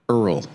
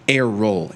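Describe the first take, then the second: First: The name is said as one syllable. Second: The name is said as two syllables. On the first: The speaker calls it wrong. "that is a little bit off" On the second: The speaker calls it right. "it would be pronounced like air roll"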